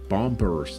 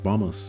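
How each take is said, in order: First: It is said with a Danish accent. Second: It is said with an English accent.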